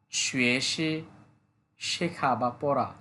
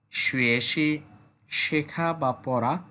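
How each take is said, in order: Both takes have the same delivery.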